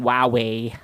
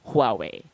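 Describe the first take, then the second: First: It starts with no audible H sound. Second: It starts with a breathy H sound. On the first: The speaker calls it wrong. "instead of just saying Huawei" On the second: The speaker calls it right. "pronounce that with an H at the start, with a slight breath at the beginning"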